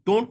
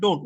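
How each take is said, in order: First: "don't" with the final t sounded; fully sounded don't. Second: "don't" with a softened, barely released ending; prettier don't. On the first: Teacher contrasts two pronunciations, "don't" with full final t. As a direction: say "don't" with its closing t. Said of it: "don't না বলে উচ্চারণটা সুন্দর হয়". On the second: Teacher models a prettier pronunciation, "don't" with softened ending. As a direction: let the t of "don't" nearly drop. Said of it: "উচ্চারণটা সুন্দর হয়". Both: Shown as a demonstration.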